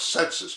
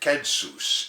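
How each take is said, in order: First: It is said the way people say it today. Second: It is said the way people said it long ago. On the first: "the Latin word that we pronounce census today" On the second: "they pronounced it census in those days"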